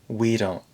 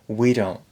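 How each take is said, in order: The two takes are said the same way.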